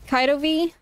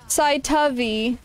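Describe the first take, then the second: First: The name begins with a K sound. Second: The name begins with an S sound. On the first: The speaker calls it wrong. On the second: The speaker calls it right.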